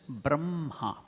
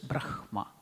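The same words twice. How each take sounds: First: The h sound comes after the m. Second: The h sound comes before the m. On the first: The speaker calls it right. "but we have to pronounce it as Brahma" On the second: The speaker calls it wrong. "We don't pronounce it as Brahma"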